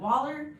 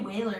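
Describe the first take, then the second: First: The first vowel sounds like 'wall'. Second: The first vowel sounds like 'way'. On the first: The speaker calls it right. "what is it like Waller?" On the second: The speaker calls it wrong. "I always say Whaler. ... I always say it wrong"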